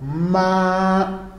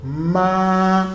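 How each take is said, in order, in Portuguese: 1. A altura fica alta e reta. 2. A altura fica alta e reta.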